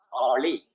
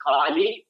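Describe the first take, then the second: First: "Kali" with the tongue curled back on the L; KALI with retroflex L. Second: "Kali" with an ordinary la, tongue forward; KALI with plain L. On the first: Teacher giving second accepted reading, retroflex L in "Kali". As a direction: curl the L in "Kali". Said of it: "Both are right". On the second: Teacher giving first of two accepted readings, plain L in "Kali". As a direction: say "Kali" with an uncurled L. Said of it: "You can either call it Kali or". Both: Shown as a demonstration.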